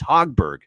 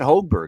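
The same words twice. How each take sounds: First: The first syllable sounds like the word 'hog'. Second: The first syllable does not sound like 'hog'. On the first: The speaker calls it right. "so like the hog" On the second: The speaker calls it wrong. "It's not Hogberg"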